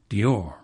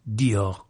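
First: The stress is on the second syllable. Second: The stress is on the first syllable. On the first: This is how English speakers say it. "We Anglos must obviously think the iambic rhythm sexier" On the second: This is how English speakers do not say it.

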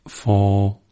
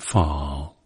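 First: It is said in modern English pronunciation. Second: It is said in Elizabethan original pronunciation. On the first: "Instead of fall" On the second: "it's fall"

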